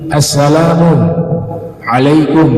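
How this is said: There is a pause between the two words.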